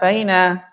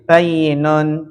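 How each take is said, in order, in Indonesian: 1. Diucapkan sebagai baina, tanpa y ganda. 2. Diucapkan sebagai bayyinun, dengan y ganda. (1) "jangan dibaca baina" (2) "Kita baca seperti dalam lafadz hadis"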